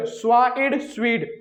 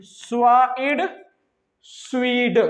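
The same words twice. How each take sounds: First: Said in the usual way. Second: "स्वा एड", a pause, then a drawn-out "स्वीड"; sounded out in parts. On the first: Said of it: "mix करके पढ़ना है". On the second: Shown as a demonstration. Teacher showing sounds first then the mix, sounded out in parts. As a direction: break "स्वा एड" from "स्वीड" and stretch the blend. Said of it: "पहले इनका sound फिर इसके sound को mix".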